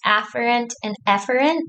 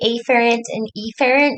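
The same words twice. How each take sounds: First: The two words sound nearly the same. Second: The two words start with clearly different vowels. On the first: The speaker calls it right. "I think it's afferent and efferent" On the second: The speaker calls it wrong. "I will say afferent and efferent just because it's easier to differentiate"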